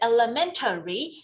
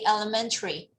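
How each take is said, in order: First: Every syllable is pronounced separately and fully. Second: The syllables are run together, with a light vowel. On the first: "you separate all the sounds" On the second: "when you're in a conversation, we usually say elementary"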